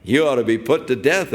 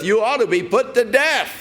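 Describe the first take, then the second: First: Said in the usual way. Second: Acted scripture line called out high; calling out the verdict. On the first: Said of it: "preacher's own plain paraphrase". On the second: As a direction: shout the sentence across to Abner. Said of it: "Who are you that cries to the king".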